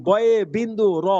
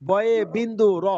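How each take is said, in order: The two takes are said the same way.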